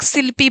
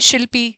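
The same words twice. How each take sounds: First: The name begins with an s sound. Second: The name begins with an sh sound. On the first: "यानी स बोल देते हैं" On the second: "मेरा नाम है शिल्पी"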